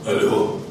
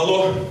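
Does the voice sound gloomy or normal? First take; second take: gloomy; normal. First: It is said in a hollow, gloomy voice. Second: It is said in an ordinary, neutral voice.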